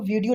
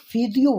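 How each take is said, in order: First: The word begins with a v sound. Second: The word begins with an f sound. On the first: "वीडियो को वीडियो नहीं बोलते हैं" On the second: "ये लोग फ़ीडियो बोलते हैं"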